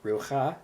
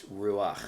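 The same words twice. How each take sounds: First: Rucha as roo-khah, ending on the vowel; wrong consonant-first reading. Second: Ruach as ROO-akh, closing on throaty kh; vowel before chet. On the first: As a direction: move the kh ahead of the ah in rucha. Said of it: "in this word it's not". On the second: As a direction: end ruach on the kh after the ah. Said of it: "it's ruach". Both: Shown as a demonstration.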